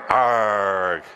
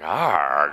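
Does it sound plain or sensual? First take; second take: plain; sensual. First: It is said plainly, without sensuality. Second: It is said in a sensual, sultry way.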